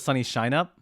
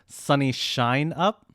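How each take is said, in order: First: The phrase is said at normal speed. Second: The phrase is said more slowly.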